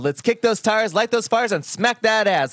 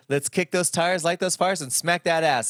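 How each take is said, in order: First: It is said with high energy and conviction. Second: It is said with tired, low energy.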